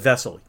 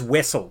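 First: The word begins with a V sound. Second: The word begins with a W sound. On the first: The speaker calls it right. "instead of vessel" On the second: The speaker calls it wrong. "he always says vessel"

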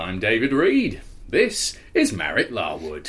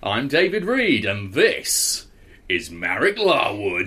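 First: Marek's name is introduced plainly. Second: Marek's name is introduced with hyped-up enthusiasm.

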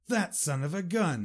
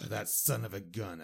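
First: The tone sounds admiring and pleased. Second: The tone sounds annoyed and exasperated. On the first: The speaker admires the person. "And that's a positive way" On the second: The speaker is annoyed with the person. "Negative way"

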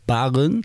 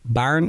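First: The name is said as two syllables. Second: The name is said as one syllable. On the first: It avoids making the speaker sound posh. The speaker calls it right. "Omdat ze bang zijn dat die R er super kakkerig uitkomt" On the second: It can make the speaker sound posh. The speaker calls it wrong. "Mensen die zeggen Baarn"

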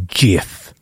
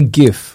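First: The word starts with a soft J-like sound. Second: The word starts with a hard G sound. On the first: "So like it's a soft G" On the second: "I say GIF"

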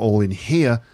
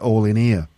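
First: The h sound in 'here' is pronounced. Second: The h sound in 'here' is dropped. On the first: This is the speaker's own accent. "Not all in here" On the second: This is the Manchester accent. "but all in here"

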